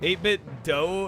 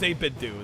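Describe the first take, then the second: First: The last word rhymes with go. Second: The last word rhymes with too. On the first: The speaker calls it wrong. "no, it's eight bit do" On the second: The speaker calls it right. "They confirmed it is do"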